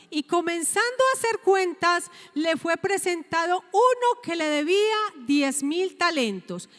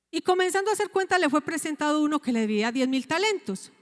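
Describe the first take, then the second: First: Said in the usual way. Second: "Y comenzando a hacer cuenta" leído muy rápido; relectura rápida. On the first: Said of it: "Versículo veinticuatro dice". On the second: Shown as a demonstration. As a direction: vuelve a leer el versículo de corrido, deprisa. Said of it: "Entonces dice acá, dice". (relee la cita rápido y sin pausas)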